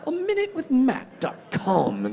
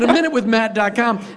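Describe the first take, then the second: First: It is said in a put-on British accent. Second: It is said in a plain American accent.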